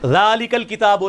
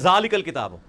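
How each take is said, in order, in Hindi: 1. पहला शब्द नरम 'dh' की आवाज़ से शुरू होता है। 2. पहला शब्द सख्त 'z' की आवाज़ से शुरू होता है।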